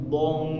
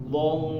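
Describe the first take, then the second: No difference in how they are said.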